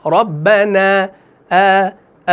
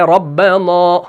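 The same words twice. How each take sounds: First: Slow ربنا with a light final aa; fine long vowel ending ربنا; correct thin alif. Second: Imitated recitation of ربنا with heavy final aa; dark, full ending on ربنا; wrongly thick alif. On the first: Shown as a demonstration. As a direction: hold the نا of ربنا open and unrounded. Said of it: "وہ الف باریک پڑھا جائے گا". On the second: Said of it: "کوئی پڑھ رہا ہے ربنا".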